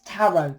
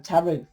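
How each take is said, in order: First: Tarot ending in an open OH; usual pronunciation. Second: Tarot ending in an OO; variant pronunciation. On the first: Reader linking the card to truth, tarot first said as TARR-oh. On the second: Reader linking the card to truth, tarot said as ta-ROO. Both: Shown as a demonstration. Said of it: "Different ways of saying it".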